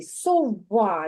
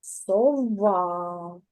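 First: Сова drawn out so the middle в is heard; slowly sounding out. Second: Сова drawn out slowly so the middle в is heard; slowly sounding out. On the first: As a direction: stretch сова, bring out the middle в. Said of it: "Він знаходиться всередині". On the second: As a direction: stretch сова and let the в in the middle ring. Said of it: "він всередині". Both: Shown as a demonstration. Teacher to child, slowly sounding out сова.

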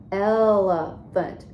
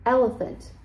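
First: ELEPHANT drawn out slowly in three beats; Elephant, slowly split into syllables. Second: Said in the usual way. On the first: Shown as a demonstration. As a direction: stretch Elephant into el-e-phant, one beat at a time. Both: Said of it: "Three syllables".

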